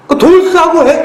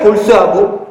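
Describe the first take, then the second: First: A hammed-up snap, much higher and louder; mock yell of 돌쇠하고 해, high and loud; mock angry yell. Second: Said in the usual way. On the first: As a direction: fling 돌쇠하고 out as a retort, half-joking. Mock literal angry retort.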